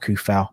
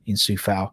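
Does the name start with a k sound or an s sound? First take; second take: k sound; s sound. First: The name starts with a k sound. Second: The name starts with an s sound. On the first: The speaker calls it right. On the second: The speaker calls it wrong.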